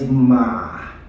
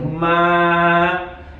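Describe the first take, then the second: First: It is said with the third Mandarin tone. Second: It is said with the first Mandarin tone. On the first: "the third one is ma" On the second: "the first one I think goes something like ma"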